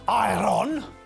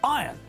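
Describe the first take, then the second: First: An R sound is heard before the N. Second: No R sound is heard before the N. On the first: The speaker calls it wrong. "not iron" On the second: The speaker calls it right. "Iron is pronounced iron"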